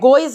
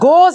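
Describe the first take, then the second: First: The vowel glides into an 'oy' sound. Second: The vowel is a plain 'oh' sound. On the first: The speaker calls it wrong. "गोइज नहीं" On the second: The speaker calls it right. "गोज है"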